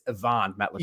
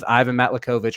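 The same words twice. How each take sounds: First: The first name sounds like Ee-vahn. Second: The first name sounds like Eye-van. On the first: The speaker calls it right. "it's Ivan Matlakovich" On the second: The speaker calls it wrong. "or excuse me"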